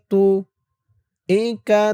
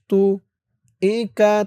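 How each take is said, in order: Both takes have the same delivery.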